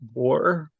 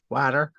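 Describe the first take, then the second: First: It is said with a British accent. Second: It is said with an American accent.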